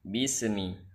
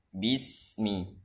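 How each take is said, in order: First: A short vowel-like echo follows the s sound. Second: The s flows straight into the m, no echo. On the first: The speaker calls it wrong. "Seakan-akan di sini ada bunyi e" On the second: The speaker calls it right. "Jangan ada e"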